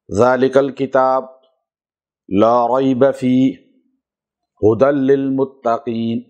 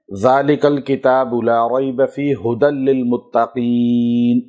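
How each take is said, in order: First: It is recited broken up with pauses. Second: It is recited continuously without breaks.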